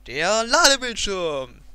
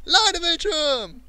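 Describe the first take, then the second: First: Drawn-out, loud, excited call. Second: High, loud, cheering shout; excited cheer. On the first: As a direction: announce it with big excitement. Excited announcing the load screen. (begeistert gedehnt ausgerufen) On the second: Cheering at the load screen. (hoch und laut gejubelt) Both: Real, not acted.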